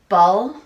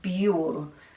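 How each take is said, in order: First: The vowel is the short uh sound. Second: The vowel is the long you sound. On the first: "that doesn't sound right" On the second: "That doesn't sound right either"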